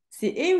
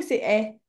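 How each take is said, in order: First: "E" said as a closed é, drawn out slowly. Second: "E" said as an open è, falling. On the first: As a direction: offer "E" slowly as a tight "ay". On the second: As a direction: offer "E" slowly as an open "eh". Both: Shown as a demonstration. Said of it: "Tu l'as écrit quoi?".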